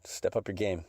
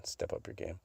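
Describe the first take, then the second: First: Said in the usual way. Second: Whispered, repeating "Step up your game" softly. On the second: Real, not acted. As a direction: breathe the line as a secret aside. Repeated tease, whispered take.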